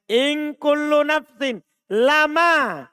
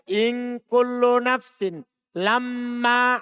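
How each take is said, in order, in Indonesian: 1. Huruf m pada kata terakhir dibaca pendek. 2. Huruf m pada kata terakhir dibaca dobel. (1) "Kalau dibaca lama" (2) "Dibaca tasdid"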